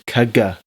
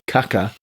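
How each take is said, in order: First: The middle consonant is a g sound. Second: The middle consonant is a k sound. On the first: The speaker calls it right. "but it's caga" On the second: The speaker calls it wrong. "We're saying it like caca"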